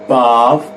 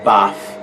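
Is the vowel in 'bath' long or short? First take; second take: long; short. First: The vowel is long, British style. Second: The vowel is short, not British style. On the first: The speaker calls it right. "we say bath in British English" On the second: The speaker calls it wrong. "and not"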